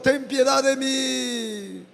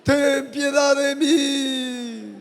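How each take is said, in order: First: \"ten piedad de mí\" spoken very slowly; slow spoken plea. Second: \"Ten piedad de mí\" sung slowly as a prayer chant; sung plea. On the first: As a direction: stretch out the plea. (súplica hablada y muy lenta) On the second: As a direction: sing the plea out. (sung, súplica cantada y lenta) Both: Shown as a demonstration. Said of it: "Dile a Él".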